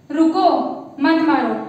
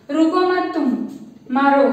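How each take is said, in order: First: Rising रुको, break, then मत मारो falling; रुको alone, then मत मारो as one command; pause after रुको. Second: रुको मत तुम as one phrase, then मारो alone; pause before मारो. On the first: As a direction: stop after रुको, keep मत मारो together. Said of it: "मतलब ये बोल रहा है कि उसको मत मारो". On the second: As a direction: break after तुम, land firmly on मारो. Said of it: "मतलब कि रुकना मत, मारते रहो तुम". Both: Shown as a demonstration.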